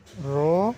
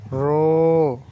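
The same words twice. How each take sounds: First: रो said short and clipped. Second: रो stretched long, louder. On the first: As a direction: keep the रो brief. (रो छोटा) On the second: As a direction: draw the रो out. (रो खींचकर लंबा) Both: Shown as a demonstration. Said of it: "दूसरे वाले को थोड़ा खींच कर पढ़ेंगे".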